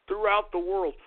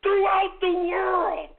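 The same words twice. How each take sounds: First: Said in the usual way. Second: Pitched high, slow and loud; drawn-out high shout. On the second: Acted. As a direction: stretch throughout the world up high like a proclamation. Host boasting of his audience.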